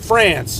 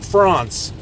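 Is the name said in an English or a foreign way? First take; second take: English; foreign. First: It is said with an English pronunciation. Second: It is said with a foreign pronunciation. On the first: The speaker calls it right. "In English, we say" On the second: The speaker calls it wrong. "not France"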